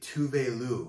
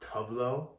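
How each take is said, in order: First: The name does not sound like tough love. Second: The name sounds like the phrase tough love. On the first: The speaker calls it right. "That's how to pronounce her name" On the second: The speaker calls it wrong. "like a play on tough love"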